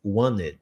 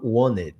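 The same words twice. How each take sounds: First: The middle T sound is dropped. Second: The same.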